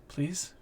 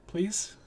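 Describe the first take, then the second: First: Small, higher, hushed begging; soft plea. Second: Higher-pitched, hushed plea; Willow. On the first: Krishan looks at the player and goes, soft hopeful plea. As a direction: plead softly with a rising question. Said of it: "looks at you and goes". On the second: Willow also looks at the player, small high pleading. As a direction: beg in a small, high, soft voice. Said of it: "Willow also looks at you and goes". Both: Acted.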